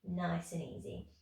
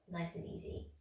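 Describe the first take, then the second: First: Said in the usual way. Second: Softly whispered encouragement. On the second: Real, not acted. Instructor easing class after pulses, whispered. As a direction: breathe the words out gently.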